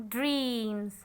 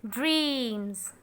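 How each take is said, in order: No difference in how they are said.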